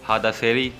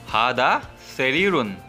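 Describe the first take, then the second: First: The last word ends without the -un. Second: The last word ends with an added -un. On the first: This is the everyday spoken form. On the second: This is the pure written form.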